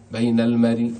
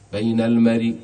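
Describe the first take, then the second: First: The final sound carries a faint, partial vowel. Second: The final sound carries a faint, partial vowel.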